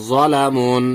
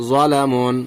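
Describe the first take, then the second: The two takes are said the same way.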